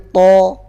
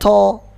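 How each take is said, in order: First: No air escapes after the consonant. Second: Air escapes audibly after the consonant. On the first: The speaker calls it right. "to nggak boleh ada angin yang keluar" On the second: The speaker calls it wrong.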